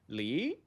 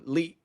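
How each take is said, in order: First: The pitch goes up. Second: The pitch goes down. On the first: "one goes up" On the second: "The one third one goes down"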